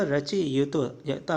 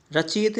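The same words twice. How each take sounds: First: रचयिता ending in a long taa; correct pronunciation. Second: रचयित cut off at yit; wrong pronunciation. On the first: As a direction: draw out रचयिता slowly to its final taa. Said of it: "रचयिता होता है". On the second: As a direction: say रचयित with no final aa. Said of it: "रचयित नहीं होता". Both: Shown as a demonstration.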